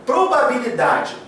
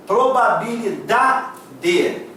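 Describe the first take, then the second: First: Said in the usual way. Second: "Probabilidade" drawn out very slowly, syllable by syllable; very slow teaching demo of "Probabilidade". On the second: Shown as a demonstration. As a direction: sound out "Probabilidade" in separate, stretched syllables. Teacher sounds out syllables to find stress.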